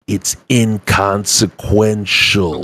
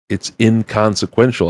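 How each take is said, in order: First: It is said very slowly. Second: It is said at normal speed.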